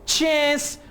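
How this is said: It is said in an American English accent. "American English में आप इसे चैंस"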